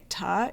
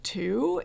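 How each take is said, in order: First: The vowel is reduced to a weak 'uh' sound. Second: The vowel is a full 'oo' sound. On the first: This is how the speaker's local accent says it. "I'll say ta instead of to" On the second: This is the standard way to say it. "instead of to"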